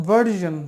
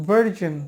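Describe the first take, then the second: Both takes have the same delivery.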